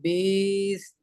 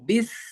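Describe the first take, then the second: First: The vowel is long and drawn out. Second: The vowel is short and said quickly. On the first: The speaker calls it wrong. "Not बीस" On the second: The speaker calls it right. "बिस को जल्दी पढ़ो"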